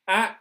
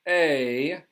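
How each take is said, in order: First: The vowel is short, as in cat. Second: The vowel is long, as in day. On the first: "A is the short vowel sound" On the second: "that's when you get the long vowel sound"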